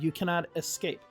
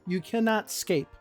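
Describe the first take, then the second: First: The opening vowel of escape is clearly pronounced. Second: The opening vowel of escape is left out. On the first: The speaker calls it right. "You pronounce the E" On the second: The speaker calls it wrong.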